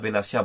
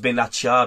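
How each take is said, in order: First: The name has an s sound before -ia. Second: The name has a t sound before -ia. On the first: This is how the speaker habitually says it. "moi, je dis Mehdi Benassia" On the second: This is how the name is properly pronounced. "ça se prononce Benatia"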